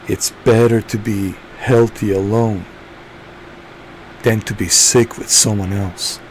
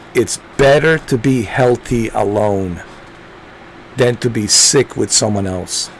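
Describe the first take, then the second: First: It is said in a put-on character voice. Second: It is said in a normal speaking voice.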